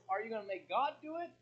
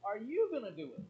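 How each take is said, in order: First: God punched, question rising at the end; stress on God. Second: YOU raised high and loud, then falling; stress on you. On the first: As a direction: lean on God as one of two choices. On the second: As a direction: throw the weight onto you as the other choice. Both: Shown as a demonstration. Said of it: "the question is".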